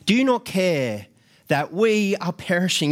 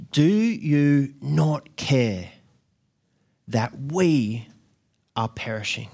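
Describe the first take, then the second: First: Frantic shout. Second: Drawn-out, heavy disbelief, slowly; slow pleading question. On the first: Disciples in the sinking boat shouting at Jesus, frantic. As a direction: yell it over the storm. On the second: Disciples to sleeping Jesus, slow stunned plea. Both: Retold or imitated. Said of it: "they would have been shouting and screaming".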